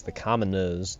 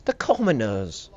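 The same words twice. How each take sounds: First: Said in the usual way. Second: Slow, drawn-out British "commoners"; hammed-up British disdain; mock British accent. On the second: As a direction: stretch commoners like a snooty British aristocrat. Repeats word in mock British.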